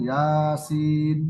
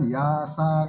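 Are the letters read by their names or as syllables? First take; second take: letter names; syllables. First: Each letter is said by its full name. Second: The letters are run together as short syllables. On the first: The speaker calls it right. "Sama dengan Yasin" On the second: The speaker calls it wrong. "bukan Yasa"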